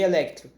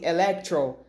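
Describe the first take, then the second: First: It is said with a Brazilian Portuguese accent. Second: It is said with an American English accent. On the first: The speaker calls it right. "pelo menos eles falam mais aportuguesado" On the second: The speaker calls it wrong. "se eles falassem Electro, daí seria demais"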